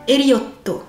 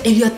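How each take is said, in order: First: The name ends with a final to syllable. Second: The name ends without a final vowel. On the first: "Donc là, ce sera To" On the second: "il n'y a pas de voyelle finale, c'est muet"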